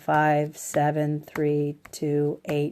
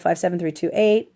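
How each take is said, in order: First: The numbers are said in a flat monotone. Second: The numbers are said with varied, lively pitch. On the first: The speaker calls it right. "that you speak monotone" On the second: The speaker calls it wrong. "that you don't go"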